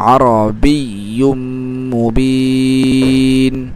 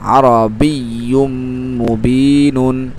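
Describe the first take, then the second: First: The last vowel is stretched long before stopping. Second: The last vowel is short, with a final vowel. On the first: The reciter pauses at the end of the word. "তিন আলিফ টানছি" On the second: The reciter continues without stopping. "এক আলিফ টানবো"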